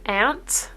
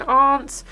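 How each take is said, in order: First: "aunt" said like "ant", flat a as in ants; mock American "aunt" as "ant". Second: Said in the usual way. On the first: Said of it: "like they're saying it like ants". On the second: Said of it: "a kind of a more tangy accent".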